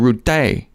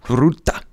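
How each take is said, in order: First: The name ends with a French-sounding ending. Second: The name ends abruptly on an 'ah' vowel. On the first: "I think that would be Francais" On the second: "you stop it abruptly and end with a like"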